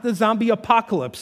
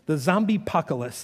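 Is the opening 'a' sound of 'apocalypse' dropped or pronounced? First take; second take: pronounced; dropped. First: The first syllable of apocalypse is pronounced. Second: The first syllable of apocalypse is dropped. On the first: "not the zombie apocalypse" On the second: "he had a lot of pronunciation issues"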